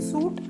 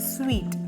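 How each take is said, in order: First: The word sounds like 'suit'. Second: The word sounds like 'sweet'. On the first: The speaker calls it wrong. "സൂട്ട് അല്ല" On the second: The speaker calls it right. "സ്വീറ്റ് എന്നാണ് pronounce ചെയ്യുക"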